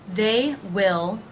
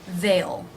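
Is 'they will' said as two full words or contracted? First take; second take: full; contracted. First: Both words are said in full. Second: It is contracted into one syllable.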